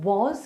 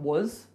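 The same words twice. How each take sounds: First: The vowel is said fully and clearly. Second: The vowel is reduced to a weak uh. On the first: "the word was" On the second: "can become was, W U Z"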